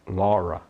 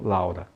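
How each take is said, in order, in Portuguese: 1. A primeira vogal é um O aberto. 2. A primeira vogal é um ditongo a-u. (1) "O nome da pessoa Laura é Laura" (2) "e não Laura"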